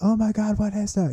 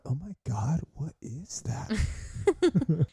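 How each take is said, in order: First: It is said in a fearful, alarmed way. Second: It is said in a curious, playful way.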